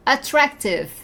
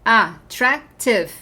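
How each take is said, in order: First: Said in the usual way. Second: "Attractive" in three separate beats; slow "Attractive" with pauses between syllables; counted syllables. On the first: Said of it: "é um adjetivo comprido ou curto". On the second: Shown as a demonstration. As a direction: break "Attractive" into a, trac, tive. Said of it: "Tem mais de duas sílabas".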